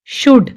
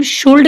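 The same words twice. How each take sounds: First: शुड said with no L sound; silent L. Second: शुल्ड with the L wrongly voiced before D; L sounded. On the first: Teacher showing learners the word, शुड with silent L. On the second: Teacher showing the mistake to avoid, शुल्ड with L sounded. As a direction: say शुल्ड, pronouncing the L. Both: Shown as a demonstration. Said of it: "इसको हम शुल्ड नहीं बोलेंगे".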